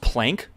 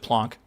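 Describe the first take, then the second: First: The vowel sounds like the 'a' in cat. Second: The vowel sounds like the 'o' in hot. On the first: "Is it actually pronounced plank?" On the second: "Thought it was plonk"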